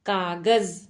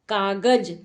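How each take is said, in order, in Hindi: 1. आखिरी व्यंजन z ध्वनि है। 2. आखिरी व्यंजन j ध्वनि है। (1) "क्या होता है?" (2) "बट कागज शब्द नहीं होता है"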